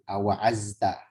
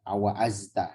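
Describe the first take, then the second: First: The middle consonant is a light z. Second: The middle consonant is a light z.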